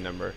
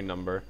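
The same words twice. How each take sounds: First: It is said in an American accent. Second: It is said in a non-American accent. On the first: "every single time I hear an American say number, they say number" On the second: "They don't say number"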